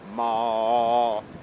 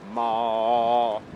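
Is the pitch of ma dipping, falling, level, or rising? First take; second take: level; level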